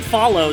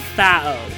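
First: The L sound is clearly pronounced. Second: The L sound is dropped. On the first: "you're saying follow" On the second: "They're saying fao. ... They do not pronounce the L"

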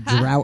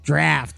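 First: The vowel sounds like the one in 'out'. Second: The vowel sounds like the one in 'craft'. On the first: The speaker calls it wrong. "Kept calling it the Drought House" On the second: The speaker calls it right. "they're like, draft"

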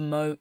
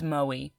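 First: The name is said as one syllable. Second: The name ends in an extra ee sound. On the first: The speaker calls it wrong. "we were pronouncing that wrong the entire time" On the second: The speaker calls it right. "And it's Moe"

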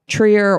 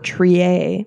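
First: The name is said the plain English way. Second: The name is said the French way.

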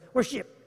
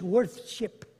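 First: The first syllable has no 'th' sound. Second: The first syllable ends with a 'th' sound. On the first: It is the shortened, modern form of the word. The speaker calls it wrong. "we cut everything short. Us Americans" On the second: It is the older, original form of the word. The speaker calls it right. "That's the original English"

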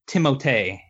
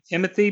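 First: The name ends with a 'tay' sound. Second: The name ends with a 'thee' sound. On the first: This is how it is supposed to be said. The speaker calls it right. "It's supposed to be pronounced Timotei" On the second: This is how most people say it. The speaker calls it wrong. "We all call him Timothy"

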